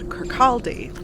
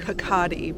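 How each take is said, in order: First: The R and L sounds are clearly pronounced. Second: The R and L sounds are soft or dropped. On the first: "I have Rotic R's and harder L's" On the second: "if you're Scottish, it's pronounced more like Hakadi"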